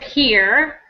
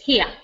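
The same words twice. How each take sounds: First: The final R sound is clearly pronounced. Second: The final R sound is dropped. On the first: "instead of here" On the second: "it's here"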